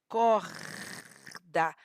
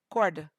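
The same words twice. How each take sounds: First: The R is a throaty, scraping sound. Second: The R is not a throaty, scraping sound. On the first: "Você sente arranhando aqui a sua gargantinha, esse tremor você sente" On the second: "O R, ele é totalmente diferente desse som"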